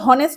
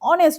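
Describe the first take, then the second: First: The word begins with an h sound. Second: The word begins with a vowel sound. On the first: The speaker calls it wrong. "আমরা তো হনেস্ট বলি না" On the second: The speaker calls it right. "অনেস্ট বলি"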